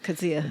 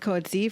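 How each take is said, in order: First: The name sounds like kut-see-uh, each vowel sounded. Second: The name sounds like coat-zee, in two syllables. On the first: This is the Afrikaans way, heard in South Africa. The speaker calls it right. "you say each vowel" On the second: This is how the speaker first heard it. The speaker calls it wrong. "I think I said Coetzee for a long time because that's how I first heard it"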